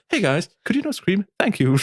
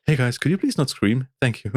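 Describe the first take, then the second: First: High, sugary passive-aggressive request; Fluff voice. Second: Passive-aggressive request. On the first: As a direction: put on a sweet YouTuber voice to shush the band. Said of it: "es ist in der Fluff-Stimme gewesen". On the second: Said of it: "ein bisschen passive-aggressive". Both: Retold or imitated.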